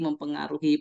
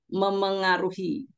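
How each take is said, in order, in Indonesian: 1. Ada bunyi p setelah m awalan. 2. Tidak ada bunyi p; awalan m langsung bersambung. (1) "tidak pernah ada kata mempengaruhi" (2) "Yang ada adalah memengaruhi"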